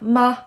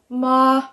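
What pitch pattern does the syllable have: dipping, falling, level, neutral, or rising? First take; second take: neutral; level. First: The syllable is short, light and unstressed. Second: The pitch stays high and level throughout. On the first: "Short and sweet and quiet" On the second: "straight across, like a monotone, very even"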